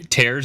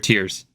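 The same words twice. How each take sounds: First: The vowel sounds like the word 'air'. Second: The vowel sounds like the word 'ear'. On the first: It means ripping something apart. "Are we are we tearing the kingdom?" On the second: It means crying. "Or are we tearing about the kingdom?"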